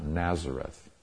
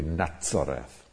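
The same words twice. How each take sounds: First: The middle consonant is a z sound. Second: The middle consonant is a ts sound. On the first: This is the English form of the name. The speaker calls it wrong. "not Nazareth" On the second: This is the Hebrew or Arabic form of the name. The speaker calls it right. "in Hebrew or in Arabic, it would be Nazareth"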